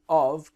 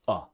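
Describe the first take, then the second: First: The full form is said, ending in a V. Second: It is reduced to a short schwa sound.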